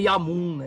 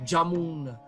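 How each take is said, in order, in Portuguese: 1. É pronunciado com a pronúncia sânscrita. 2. É pronunciado com a pronúncia bengali. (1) "não é" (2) "é"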